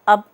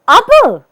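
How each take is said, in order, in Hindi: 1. यह शब्द सामान्य और सपाट ढंग से बोला गया है। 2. यह शब्द आश्चर्य के लहजे में बोला गया है। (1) "सामान्य रूप से" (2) "आश्चर्यबोधक ढंग से"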